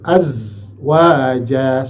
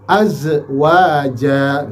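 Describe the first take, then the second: First: The z sound flows smoothly without bouncing. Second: The z sound bounces with a sudden release. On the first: The speaker calls it right. "tapi mengalir" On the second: The speaker calls it wrong. "dia mantul"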